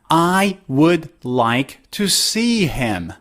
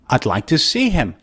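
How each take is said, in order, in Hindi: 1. 'I would' के दोनों शब्द पूरे बोले गए हैं। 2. 'I would' एक छोटे से अक्षर में बोला गया है। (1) "instead of I would" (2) "you can say odd"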